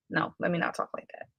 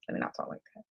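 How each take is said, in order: First: Said in the usual way. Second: Barely voiced, under the breath; whispered self-correction. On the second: Real, not acted. Speaker correcting her own wording, whispered. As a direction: catch yourself and whisper it to yourself.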